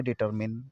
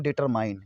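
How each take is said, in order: First: "डिटरमिन" ending in a short -min; correct determine. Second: "डिटरमाइन" ending like the word "mine"; mispronounced determine. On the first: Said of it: "आपको पढ़ना है डिटरमिन". ("डिटरमिन" का सही उच्चारण, छोटा "मिन") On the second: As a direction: say "डिटरमाइन" with a long final -mine. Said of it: "इसको लोग पढ़ते हैं डिटरमाइन". ("डिटरमाइन" का गलत उच्चारण, आख़िर में "माइन") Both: Shown as a demonstration.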